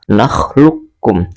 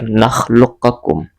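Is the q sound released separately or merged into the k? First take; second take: merged; released separately. First: The q merges directly into the k. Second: The q is released with a bounce before k. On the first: The speaker calls it right. "tetapi langsung masuk ke kaf" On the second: The speaker calls it wrong. "Tidak lagi berlaku hukum bacaan qalqalah pada qaf sukun, tidak lagi nakhluqakum. Tidak seperti itu"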